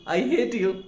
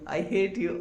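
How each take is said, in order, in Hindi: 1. यह ज़ोर से और सच्चे गुस्से के साथ कहा गया है। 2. यह मज़ाक में और प्यार से कहा गया है, गुस्से के बिना। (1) "आवाज तेज हो गई थी और आंखों के अंदर, चेहरे के अंदर एक्सप्रेशन आ चुका था" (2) "ये मजाक कर रहा है, मस्ती कर रहा है, तो प्यार से बोल रहा है"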